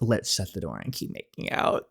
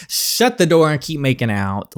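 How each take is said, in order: First: Softer and lower, a flirty murmur; sultry hush. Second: Said in the usual way. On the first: Acted. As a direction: drop the voice low for "Let's shut the door".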